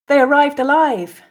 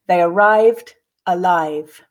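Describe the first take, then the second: First: The sentence is said smoothly at natural speed. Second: The sentence is said slowly, with pauses. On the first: "then repeat again twice at a more natural pace" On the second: "I'll read the first time slowly, pausing for you to grasp the meaning"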